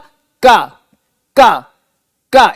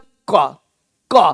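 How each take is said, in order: First: A plain k sound with no added breath. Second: A deeper k sound with slight breathy aspiration. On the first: "अब देखो मैं बोला का का का, यहां से आया" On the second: "यहां बोलते हैं क्यू ... थोड़ा सा खा थोड़ा सा मिला हुआ है"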